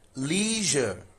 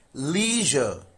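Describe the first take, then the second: First: It is said with an American accent. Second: It is said with an American accent.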